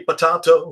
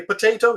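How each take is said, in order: First: Potato with an AH in the middle, puh-TAH-toh; British pronunciation. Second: Potato with an AY in the middle, puh-TAY-toh; American pronunciation. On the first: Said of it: "You say potato, we say potato". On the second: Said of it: "we say potato". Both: Shown as a demonstration.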